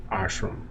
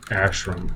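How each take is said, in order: First: "ashram" with an open ah at the start; unsure, hushed "ashram" opening with "ah"; AH-shram pronunciation. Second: "ashram" with a short a as in "ash"; unsure, soft "ashram" opening like "ash"; ASH-ram pronunciation. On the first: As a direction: try "ashram" as AHSH-rum, very softly. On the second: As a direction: try saying "ashram" as ASH-rum, softly and slowly. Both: Shown as a demonstration. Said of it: "however you say it".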